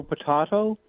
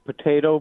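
First: "potato" with a broad ah in the middle; po-TAH-to pronunciation. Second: "potato" with an ay in the middle; po-TAY-to pronunciation. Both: Shown as a demonstration. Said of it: "doesn't know potato, potato".

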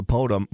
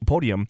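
First: "podium" with the middle syllable swallowed; "podium" squashed into two syllables; slurred slip. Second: Said in the usual way. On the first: Real, not acted. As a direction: stumble on "podium", saying it like "PO-dum". Slip, corrected at once.

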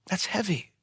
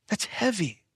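First: Soft, weighty That's heavy, heavy falling; heavy emphasis. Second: That's heavy again, softer and higher, falling on heavy; heavier repeat. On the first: Preacher pausing to let That's heavy sink in, soft and grave. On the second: Preacher repeating That's heavy to the congregation, grave. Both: Shown as a demonstration.

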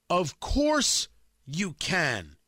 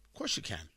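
First: OF COURSE drawn out slowly at normal volume; each word of 'Of course you can' slow and weighty; slow emphatic repeat. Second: Low, very soft reply; a soft, low 'of course'; quiet aside. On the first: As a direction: stretch 'course' and 'can', pausing between them. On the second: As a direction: drop it right down, almost under your breath. Answers his own charge, first take. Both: Real, not acted.

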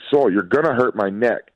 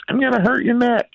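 First: Said in the usual way. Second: Very high, squeaky parroting of a parent; high mock-kid singsong; mocking little daughter. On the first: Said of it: "And I was like". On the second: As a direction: mimic them in a tiny child's pitch. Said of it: "she just mocks me and goes like".

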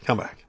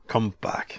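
First: Said in the usual way. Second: Unvoiced whisper calling him back. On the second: Shown as a demonstration. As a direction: breathe it out as a whisper. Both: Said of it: "now whisper".

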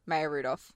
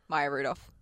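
First: "Maya" said as MAY-uh, low and soft; mispronounced name. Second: "Maya" said as MY-uh, low and soft; corrected name. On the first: Listing Bridesmaids actresses to co-host, MAY-uh mispronunciation. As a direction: say "Maya" with a first syllable like "may". Tries name, then corrects it. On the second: Listing Bridesmaids actresses to co-host, MY-uh pronunciation. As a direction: say "Maya" with a first syllable like "my". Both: Real, not acted.

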